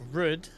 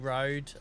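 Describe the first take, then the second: First: The vowel is short, like rud, Norfolk-style. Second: The vowel is a long standard oh sound. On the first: "Always confuses me how you pronounce r- Rud" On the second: "I try to say road"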